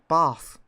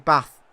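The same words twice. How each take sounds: First: The vowel is long, as in southern English. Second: The vowel is short, as in northern English.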